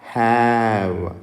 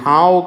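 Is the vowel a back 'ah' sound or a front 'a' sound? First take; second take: front 'a'; back 'ah'. First: The vowel is a front 'a' as in cat. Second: The vowel is an open back 'ah' sound. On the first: The speaker calls it right. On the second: The speaker calls it wrong. "ఇది హావ్ కాదు"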